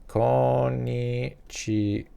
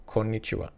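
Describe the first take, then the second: First: Konnichiwa drawn out very slowly, syllable by syllable; Konnichiwa spoken slowly like a language demo. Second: Said in the usual way. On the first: Shown as a demonstration. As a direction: say Konnichiwa slowly and clearly for learners. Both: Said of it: "Literally something so easy".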